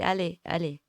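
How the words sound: It is said in a regional Vosges accent. "dans les Vosges on dit"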